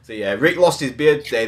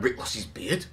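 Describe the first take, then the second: First: Said in the usual way. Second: Imitating a shocked reaction, questioning rise on beard; mock disbelief. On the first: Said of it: "seriously the biggest news". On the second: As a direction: act out hearing unbelievable news. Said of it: "I was like".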